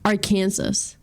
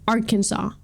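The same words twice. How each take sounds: First: The word ends sounding like 'Kansas'. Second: The word ends with a 'saw' sound. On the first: This is how the spelling suggests it. "It should be pronounced Arkansas" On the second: This is how it is usually said. "why is it pronounced Arkansas?"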